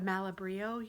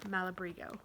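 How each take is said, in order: First: It ends without a g sound before o. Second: It ends with a g sound before o. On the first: The speaker calls it wrong. "I think I'm saying that wrong" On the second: The speaker calls it right. "M A L A B R I G O"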